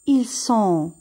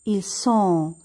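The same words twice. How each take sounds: Both takes have the same delivery.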